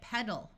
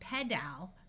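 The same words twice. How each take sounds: First: The last syllable has a muffled uh vowel. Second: The last syllable has a full, clear vowel. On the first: The speaker calls it right. "So we say it pedal" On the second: The speaker calls it wrong. "this word is not going to be pedal because that's hard to say"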